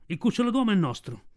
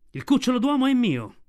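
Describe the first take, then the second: First: A touch of a menacing tiger, lightly voiced; tiger's claim. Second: Higher, louder fierce claim; fierce she-wolf. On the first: Sher Khan tells the wolves, lightly voiced tiger menace. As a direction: lay claim like a tiger at the den. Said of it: "Il ruggito della tigre risuonò come un tuono". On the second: Mother Wolf defies the tiger, fierce loud higher claim. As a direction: snap back like a she-devil guarding her cub. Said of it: "la diavola che ti risponde". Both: A narrator's reading.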